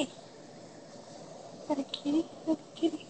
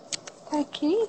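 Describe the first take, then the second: First: Whisper. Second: Said in the usual way. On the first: Real, not acted. Owner points cat at camera.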